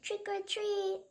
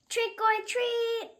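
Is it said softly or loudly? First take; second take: softly; loudly. First: It is said very softly. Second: It is said a little louder.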